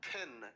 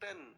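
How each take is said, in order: First: The p has a puff of breath. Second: The p has no puff of breath. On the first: "लेकिन कभी-कभी बोलते वक़्त आप बोलते हैं पेन" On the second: "वैसे तो बोलते हैं आप इसे पेन"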